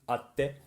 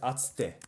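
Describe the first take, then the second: First: A short pause sits in the middle, no tsu. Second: A full tsu syllable is said in the middle.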